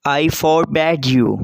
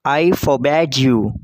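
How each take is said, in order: First: Slow, with "forbade" leaned on firmly; teacher models the sentence, hitting "forbade"; stress on forbade. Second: Slow, with the weight moved onto "I"; stress on I. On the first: Teacher dictating to students, slow with weight on "forbade". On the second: Teacher repeats for students, stressing "I" not "forbade". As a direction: repeat it, now pushing the word "I". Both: Shown as a demonstration.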